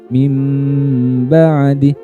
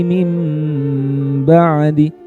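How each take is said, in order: The two takes are said the same way.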